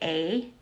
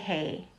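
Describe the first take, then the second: First: The word starts with a bare vowel. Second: The word starts with an h sound. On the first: "So I don't say a" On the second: "I say hey"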